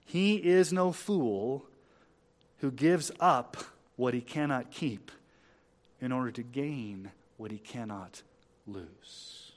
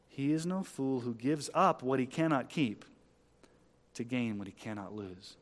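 First: Very deliberate, with pauses between phrases; measured, spaced-out delivery; slow quotation. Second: Said in the usual way. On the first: Shown as a demonstration. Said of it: "I'll say it slow".

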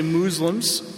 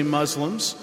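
First: "Muslims" said MOOZ-lums; long oo pronunciation. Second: "Muslims" said MUZ-lums; short u pronunciation. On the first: Pastor showing listeners one way of naming believers, long-oo pronunciation. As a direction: say "Muslims" with an oo as in moon. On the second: Pastor showing listeners the other way of naming believers, short-u pronunciation. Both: Shown as a demonstration. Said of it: "some say Muslims and some say Muslims".

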